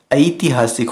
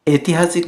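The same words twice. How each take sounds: First: "ऐतिहासिक" starting with a-i glide; correct pronunciation. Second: "ऐतिहासिक" as etihaasik, plain e; no glide at the start of "ऐतिहासिक"; wrong pronunciation. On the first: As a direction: say "ऐतिहासिक" as a-itihaasik. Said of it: "होता है". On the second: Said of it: "नहीं होता है". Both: Shown as a demonstration.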